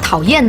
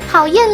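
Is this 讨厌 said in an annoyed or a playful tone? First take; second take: annoyed; playful. First: It is said in a plain, annoyed tone. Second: It is said in a coy, playful tone. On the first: The dislike is real. "这是正常的语调" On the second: The dislike is not real. "但是他不是真的讨厌你，就会说讨厌啦"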